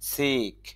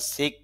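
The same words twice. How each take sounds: First: The vowel is long. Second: The vowel is short. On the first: The speaker calls it right. "Colon যে চিহ্নগুলো দেওয়া হয়েছে উচ্চারণ দীর্ঘতা বোঝানোর জন্য" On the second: The speaker calls it wrong. "সিক না বলে"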